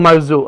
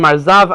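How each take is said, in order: First: The name ends in an 'oo' sound. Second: The name ends in an 'av' sound. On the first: This is the speaker's own way of saying it. "I call him Marzu" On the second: This is how other people say it. "other people call him Marzav"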